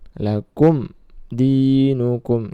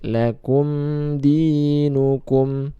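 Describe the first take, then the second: First: The m sound is cut off abruptly. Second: The m sound flows on slightly. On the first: The speaker calls it wrong. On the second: The speaker calls it right.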